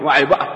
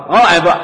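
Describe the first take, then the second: First: Said in the usual way. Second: واعي بقى said louder, pressing the word واعي; emphatic repeat. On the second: Retold or imitated. Husband convincing himself to do the dishes, emphatic repeat. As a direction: hammer home واعي بقى the second time.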